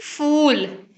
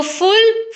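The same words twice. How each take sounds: First: फूल with a long drawn-out oo; long vowel. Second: फुल with a short u, pitched high; short vowel. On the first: (फूल में लंबा ऊ खींचकर) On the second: (फुल में छोटा उ) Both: Shown as a demonstration. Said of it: "ये minimal pairs इस तरह के हैं".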